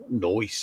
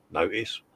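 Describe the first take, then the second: First: "Noise" said as one syllable, with no t sound; misreading. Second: "Notice" said in full, with the t, as "no-tis"; correct reading. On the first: Host mocking the viewer's typo by saying "Noise". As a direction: read "Noise" as the mistyped word. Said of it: "he says, even". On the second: Host correcting the viewer's "Noise" by saying "Notice". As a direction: say "Notice" properly to correct the typo. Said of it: "God, learn to read". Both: Retold or imitated.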